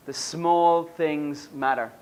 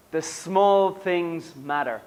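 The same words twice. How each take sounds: The two takes are said the same way.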